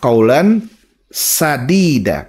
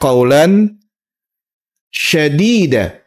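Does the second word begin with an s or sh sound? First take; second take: s; sh. First: The second word begins with an s sound. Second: The second word begins with an sh sound. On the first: Saying it this way means the words are true and right. The speaker calls it right. "pakai sin bukan shin" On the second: Saying it this way means the words are fierce or mighty. The speaker calls it wrong. "Ini sering banyak orang salah bacanya ini"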